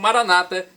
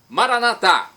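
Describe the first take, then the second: First: The stress is on the second-to-last syllable. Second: The stress is on the last syllable. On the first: This is how evangelicals say it. "com a tônica na penúltima sílaba" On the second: This is how Catholics say it. "se a tônica é na última sílaba, como os católicos pronunciam"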